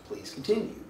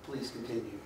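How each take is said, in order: First: Breathy whisper, rising at the end; whispered please continue. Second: Low, soft, falling command; flat experimenter. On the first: Experimenter to subject, a soft whispered request. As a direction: murmur it gently, like a polite experimenter. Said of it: "all I do is say". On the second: Experimenter to subject, quiet low insistence. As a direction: say it coolly, like a calm authority. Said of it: "And I go". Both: Retold or imitated.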